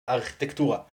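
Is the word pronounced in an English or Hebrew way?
Hebrew. It is said the Hebrew way, ending in -tura. The speaker calls it wrong. "in Hebrew, I say architektura, which sounds horrible"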